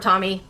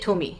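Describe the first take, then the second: First: It is said like the English name Tommy. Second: It is said with clipped Japanese syllables, to-mi. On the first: "or Tommy" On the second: "I'm just gonna say Tomy, the way that Japanese syllables are cut"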